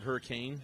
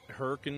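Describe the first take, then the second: First: It is pronounced the standard way. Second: It is pronounced the local Utah way. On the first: It is the ordinary word. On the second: It names the Utah town.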